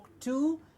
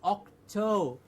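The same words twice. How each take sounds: First: The second syllable sounds like 'two'. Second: The second syllable sounds like 'toe'. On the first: The speaker calls it wrong. "There is no two in Octo" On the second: The speaker calls it right. "It's like the toes on your feet"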